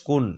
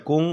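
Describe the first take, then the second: First: কুন ending on a plain, clear n. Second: কুং with the n hidden into a nasal ng; nasal ghunnah. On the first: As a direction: say কুন with no nasal ng. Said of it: "এই দুইটা এভাবে উচ্চারণ করব". (কুন-এ স্পষ্ট ন, গুন্না ছাড়া) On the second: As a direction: hum the end of কুং through the nose. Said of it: "ওইভাবে উচ্চারণ করতে হবে". (কুং-এর শেষে নাকে গুন্নার উচ্চারণ) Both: Shown as a demonstration.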